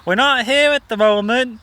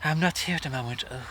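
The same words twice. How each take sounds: First: Higher and louder, bright phone-message sing-song; mum's answering machine voice. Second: Joanna Lumley impression. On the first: Retold or imitated. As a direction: put on a chirpy recorded greeting. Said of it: "She'd be like". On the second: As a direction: purr the message like a posh actress. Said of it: "she used to put on, like, a Joanna Lumley".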